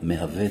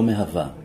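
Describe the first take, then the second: First: The word ends with an 'e' vowel. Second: The word ends with an 'a' vowel. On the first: The form agrees with a masculine subject. The speaker calls it right. "אני הייתי עושה פה סגול" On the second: The form agrees with a feminine subject. The speaker calls it wrong. "לא מהווה"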